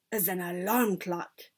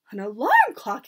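First: Understated, measured reveal; triumphant announcement. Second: Loud incredulous question; cried out. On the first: Grand High Witch unveiling her secret, understated triumph. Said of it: "announced the Grand High Witch triumphantly". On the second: Witches reacting to the secret, cried out. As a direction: echo it loudly in disbelief. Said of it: "they cried". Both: A narrator's reading.

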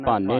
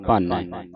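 First: ਭਾਨੇ with a closed final "ay"; wrong single-lanv ending. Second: ਭਾਨੈ with an open final "eh"; double-lanv ending. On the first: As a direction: close the last vowel of ਭਾਨੇ. (ਭਾਨੇ, ਇੱਕ ਲਾਂ ਨਾਲ) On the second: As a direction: open the last vowel of ਭਾਨੈ. (ਭਾਨੈ, ਦੁਲਾਵਾਂ ਨਾਲ) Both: Shown as a demonstration. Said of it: "ਭਾਨੇ ਨਹੀਂ ਪੜ੍ਹਨਾ".

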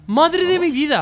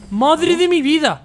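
First: Loud high cry of disbelief; exclamation. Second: Slow, loud, high cry of disbelief; drawn-out exclamation. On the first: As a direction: repeat it, still amazed. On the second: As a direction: stretch it out in relieved amazement. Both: Real, not acted. Finally beats hard level.

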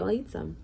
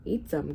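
First: Said in the usual way. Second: Understated, horrified echo; gasped. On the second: A narrator's reading. Bartholomew horrified by captain's plan, gasping lightly. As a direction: repeat it in hushed disbelief. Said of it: "gasped Bartholomew".

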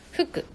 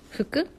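First: 服 tried short and soft; intonation test. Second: 服 with pitch rising to the end; intonation test. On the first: Streamer unsure which intonation of 服 is right, short soft take. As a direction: say 服 briefly, softer, as one option. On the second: Streamer comparing intonations of 服, rising take. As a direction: lift the end of 服, softly questioning. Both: Shown as a demonstration. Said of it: "どっちだ？".

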